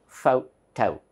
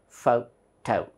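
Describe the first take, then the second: No difference in how they are said.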